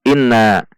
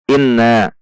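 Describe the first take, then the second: No difference in how they are said.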